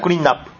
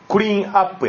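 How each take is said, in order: First: The n links onto up, making nap. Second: The word is said without a linking n sound. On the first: This is how the word is actually pronounced. "ただ発音としてはクリーンナップ、その最後のN がくっつくから" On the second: This is the strictly correct form of the word. "クリーンアップやね、正確には"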